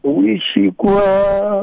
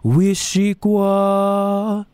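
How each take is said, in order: First: Uishi kwa carefully repeated slowly; repeating slowly. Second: Wishikwa stretched very slow and high; each syllable of Wishikwa drawn out; over enunciating. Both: Shown as a demonstration. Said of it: "Let's do one word at a time".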